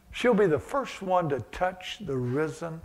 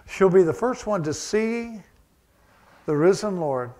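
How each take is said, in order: First: Said in the usual way. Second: "be" pushed higher and louder, then "the risen Lord" kept loud; stress on be. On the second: Acted. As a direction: repeat it with weight, leaning hard on "be". Repeats phrase with more force.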